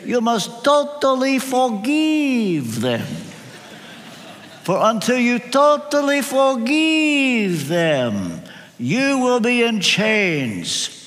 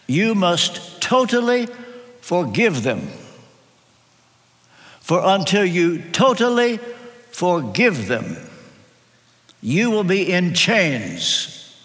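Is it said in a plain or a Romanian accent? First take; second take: Romanian; plain. First: It is said with a Romanian accent. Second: It is said in his plain own accent.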